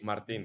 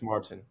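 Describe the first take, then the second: First: The name is pronounced the Spanish way. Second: The name is pronounced the English way. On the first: The speaker keeps the name's native form. "I don't say Martin" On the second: The speaker adapts the name for English listeners. "when I go to someone that speaks English, I say hello. My name is Martin"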